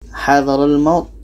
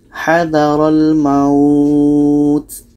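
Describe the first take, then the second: First: The vowel in the last word is short. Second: The vowel in the last word is lengthened. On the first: The speaker calls it wrong. "ini salah" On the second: The speaker calls it right. "dibaca panjang"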